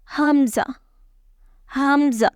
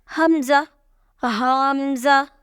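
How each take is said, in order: First: "hamza" said short and falling, with no stretch; correct short hamza. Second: "hamza" wrongly drawn out as "ahaamza"; wrong stretched hamza. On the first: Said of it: "Read it just". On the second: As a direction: show the mistake by stretching "hamza". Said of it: "don't read". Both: Shown as a demonstration.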